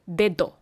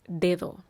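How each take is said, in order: First: The middle d is hard and firm. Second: The middle d is soft and light. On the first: The speaker calls it wrong. "not dedo" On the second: The speaker calls it right. "The word for finger is dedo"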